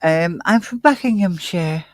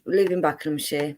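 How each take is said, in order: First: Copying her London Buckinghamshire; mimicking her accent. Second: Buckinghamshire with the h dropped, bakləmshi; her London accent. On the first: Co-host imitating her way of saying Buckinghamshire. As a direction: echo the way she said it, lightly. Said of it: "the difference in the way she spoke". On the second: Real, not acted. Guest reading out her hometown in her own London accent. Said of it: "the difference in the way she spoke then".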